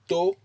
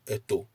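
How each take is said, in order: First: The high pitch is on the second syllable. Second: No syllable carries a high pitch. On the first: It means an ear. "you place a high intonation on the O" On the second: It means a mortar. "If you use no intonation at all"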